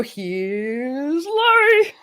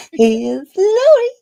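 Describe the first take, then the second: First: Slow, drawn-out show host intro; announcer intro. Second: High, loud, slow host announcement; announcer intro. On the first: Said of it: "you're supposed to go". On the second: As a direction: belt it like a game show host. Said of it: "you just did a good job there". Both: Shown as a demonstration.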